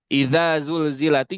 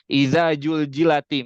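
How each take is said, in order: First: The second word starts with a z sound. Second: The second word starts with a j sound. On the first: The speaker calls it right. "Yang harusnya dibaca" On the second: The speaker calls it wrong. "jadi iza juljilati misalkan"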